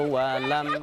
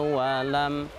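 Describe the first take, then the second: The two takes are said the same way.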